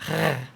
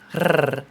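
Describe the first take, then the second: First: A throaty French-style R sound. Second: A rolled Spanish-style R sound. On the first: "French R, which is like a R" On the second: "the Spanish R"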